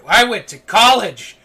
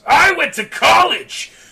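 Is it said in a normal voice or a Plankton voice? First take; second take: normal; Plankton. First: It is said in an ordinary voice. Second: It is said in a Plankton impression voice.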